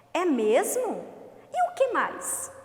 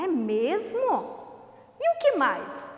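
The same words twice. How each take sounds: First: Amazed, then eagerly curious; exclaim then ask. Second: "É mesmo?" drawn out slowly in admiration, "E o que mais?" higher and louder; slow exclamation then question. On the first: Teacher reading the fox's friend, amazed then asking. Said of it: "Vamos à segunda frase". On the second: Teacher showing the class amazement then a question, slowly. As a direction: stretch the wonder, then pop the question. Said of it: "ela exclama, ela admira". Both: Shown as a demonstration.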